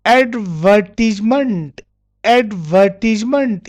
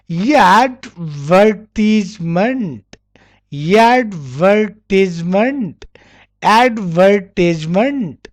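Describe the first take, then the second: First: ADVERTISEMENT as "ad-VER-tiz-ment", r dropped; deliberate r-less ADVERTISEMENT; British pronunciation. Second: ADVERTISEMENT very slow, r sounded in "ver"; American pronunciation. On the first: Teacher modelling British advertisement, syllable by syllable without r. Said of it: "in British". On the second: Teacher showing American advertisement, slow with r sounded. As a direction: drag out each syllable of ADVERTISEMENT with an r. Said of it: "difference between British and American". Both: Shown as a demonstration.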